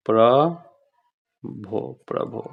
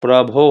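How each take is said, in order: First: प्रभो drawn out very slowly for dictation; teacher dictating प्रभो slowly. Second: Said in the usual way. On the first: Shown as a demonstration. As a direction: stretch प्रभो out syllable by syllable. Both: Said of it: "Prabhu".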